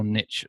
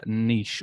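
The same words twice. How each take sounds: First: "niche" with a short i and a tch ending; niche as "nitch". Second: "niche" with a long ee and a soft sh; niche as "neesh". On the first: Host offers the other way to say it, "niche" as nitch. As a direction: say "niche" to rhyme with itch. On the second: Host offers one way to say it, "niche" as neesh. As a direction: say "niche" to rhyme with leash. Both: Shown as a demonstration. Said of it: "depending on how you say it".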